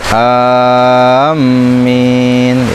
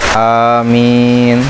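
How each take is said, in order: First: The first vowel is long and the m doubled. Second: The first vowel is short and the m single. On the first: "mad jeung tasydid" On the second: "qasar dan takhfif"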